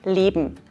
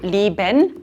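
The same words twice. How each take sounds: First: The ending is shortened to just 'n'. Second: The ending is said in full as 'en'.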